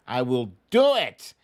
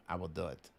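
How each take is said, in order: First: Belted out, loud and firm; a loud, emphatic vow; loud promise. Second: Much softer, low and under the breath; a soft, murmured echo of the vow; quiet repeat. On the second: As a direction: tuck it away softly to yourself. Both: Real, not acted.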